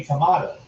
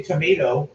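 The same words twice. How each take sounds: First: Tomato with an "ah" middle; British tomato. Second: Tomato with a long "may" middle; American tomato. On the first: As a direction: say tomato the British way, tuh-MAH-toe. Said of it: "you say tomato". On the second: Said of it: "we say tomato". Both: Shown as a demonstration.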